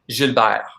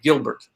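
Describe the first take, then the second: First: It is pronounced fully with a French accent. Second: It is pronounced as a plain English name. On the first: The speaker calls it right. "with like my French accent" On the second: The speaker calls it wrong. "something terrible like"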